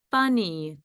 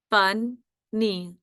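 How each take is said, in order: First: Said in the usual way. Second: "Funny" broken into fun, then nee; split into syllables. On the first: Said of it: "going to be the word". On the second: Shown as a demonstration. Teacher dictating a quiz word, split into syllables. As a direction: say "Funny" with a gap between syllables. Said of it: "Let's spell fun".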